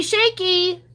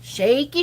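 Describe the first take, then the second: First: Shaky squealed high and bright; excited squeal. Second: Said in the usual way. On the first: Shown as a demonstration. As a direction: squeal the word shaky with glee. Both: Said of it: "really incredible shaky, shaky bonus".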